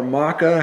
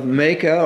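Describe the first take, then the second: First: Maacah said as MAH-kah; alternative pronunciation. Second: Maacah said as MAY-kah; variant pronunciation. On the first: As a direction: say Maacah with an open "ah" first vowel. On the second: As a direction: say Maacah with a long "ay" first vowel. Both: Shown as a demonstration. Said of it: "however you want to say her name".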